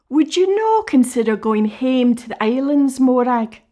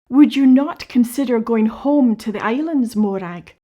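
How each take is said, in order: First: It is said in Scots dialect. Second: It is said in standard English.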